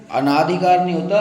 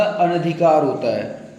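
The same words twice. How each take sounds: First: अनाधिकार with a long naa; wrong form. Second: अनधिकार slowed, with a short na; correct form. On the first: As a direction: stretch the second vowel of अनाधिकार to aa. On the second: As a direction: keep अनधिकार short on na, a-na-dhi-kaar. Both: Shown as a demonstration.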